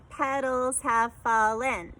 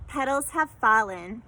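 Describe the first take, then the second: First: Petals have fallen, slow and syllable by syllable; counting syllables slowly. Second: Said in the usual way. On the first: Shown as a demonstration. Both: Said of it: "That one was also five".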